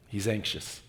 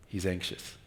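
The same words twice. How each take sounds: The two takes are said the same way.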